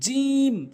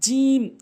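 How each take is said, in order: The two takes are said the same way.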